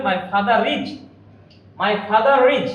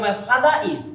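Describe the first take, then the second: First: Father is as fatharris, R sounded clearly; clear linking R. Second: Father is with no R, fatha-is; teacher shows the mistake, R left out; wrong, R dropped. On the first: Teacher to students, modelling the correct clear R. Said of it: "এই আরটা স্পষ্ট করে আমাদের উচ্চারণ করতে হবে". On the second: Teacher to students, demoing the wrong dropped-R version. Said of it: "কিন্তু তা হবে না". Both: Shown as a demonstration.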